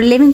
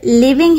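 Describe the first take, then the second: First: living broken as "li - ving"; a gap between the two syllables of living; syllable division. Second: Said in the usual way. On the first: Shown as a demonstration. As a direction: say living in two separate beats. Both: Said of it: "syllable division में किया हुआ".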